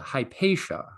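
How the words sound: The name is pronounced the American English way. "In the American English I'm used to, she's more often called Hypatia"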